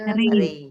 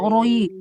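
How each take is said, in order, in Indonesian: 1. Suku katanya terdengar ringan, dengan vokal tipis. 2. Suku katanya terdengar berat, dengan vokal membulat. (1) "ri mah ringan" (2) "Tidak roi, tidak"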